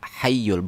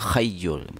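First: The word begins with an h sound. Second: The word begins with a rasping kh sound. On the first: The speaker calls it right. "harusnya ha hayyul" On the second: The speaker calls it wrong. "bukan khayyul"

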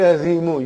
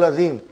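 First: The word ends with a final u vowel. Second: The word ends on the consonant m. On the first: The speaker calls it wrong. "You don't say Azimu" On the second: The speaker calls it right. "You say Sadaqallahu al-Azim"

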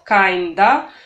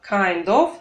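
First: The word 'of' is reduced to a vowel. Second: The word 'of' is said in full.

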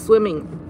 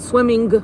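First: The final g sound is not pronounced. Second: The final g sound is clearly pronounced. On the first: The speaker calls it right. "The G is silent" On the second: The speaker calls it wrong. "it's not swimming"

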